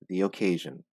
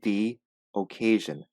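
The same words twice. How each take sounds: First: The words are joined smoothly with a 'y' sound. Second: There is a pause between the two words. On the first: The speaker calls it right. "joined the two words with the letter Y in the middle" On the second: The speaker calls it wrong. "Do not pause. Do not say the occasion"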